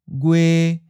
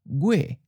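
First: The pitch stays level in the middle. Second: The pitch starts high and falls. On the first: This is how some other regions say it. "a mid flat" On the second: This is how the general southern accent says it. "in the general southern accent, it may sound almost like a high falling"

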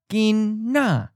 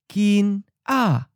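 First: The N carries over to start the second syllable. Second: The syllables are separated with the N closing the first.

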